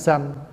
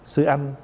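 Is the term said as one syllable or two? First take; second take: one; two. First: It is said fast, merged into one syllable. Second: It is said slowly as two syllables.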